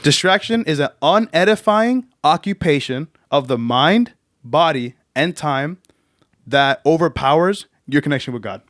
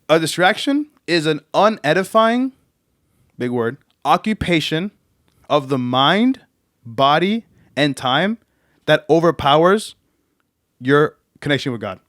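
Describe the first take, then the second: First: It is said at a faster pace. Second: It is said at a slower pace.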